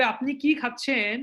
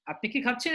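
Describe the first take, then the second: First: কি drawn out and falling, slowly; slow what-question, leaning on কি; ধীরে, কি-তে জোর; slow, stressed কি. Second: খাচ্ছেন rising at the end; হ্যাঁ-না প্রশ্নের সুরে; yes-no question. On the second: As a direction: lift খাচ্ছেন into a yes-no query. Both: Shown as a demonstration. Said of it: "উত্তরটা হচ্ছে এটা yes no".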